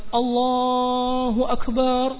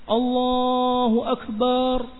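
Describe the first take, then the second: Both takes have the same delivery.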